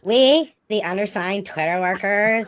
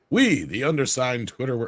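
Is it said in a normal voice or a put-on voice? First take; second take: put-on; normal. First: It is read in a put-on character voice. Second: It is read in his normal voice.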